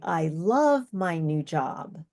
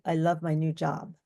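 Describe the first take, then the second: First: The pitch varies widely across the sentence. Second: The pitch stays flat and narrow throughout. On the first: "You can hear pitch variations" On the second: "a very narrow pitch"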